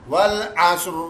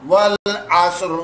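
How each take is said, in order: The two takes are said the same way.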